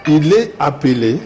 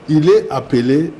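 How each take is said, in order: Both takes have the same delivery.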